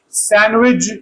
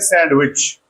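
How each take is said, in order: First: The ch is said as a j sound. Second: The ch is said as a ch sound. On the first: This is the British pronunciation. "British sandwich" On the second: This is the American pronunciation. "American sandwich"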